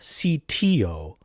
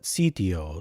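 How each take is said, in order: First: The T is pronounced hard and crisp. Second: The T is pronounced soft and dental. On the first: The speaker calls it wrong. "Not sitio" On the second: The speaker calls it right. "a little bit more of a softer dental T, a little bit more Italianate"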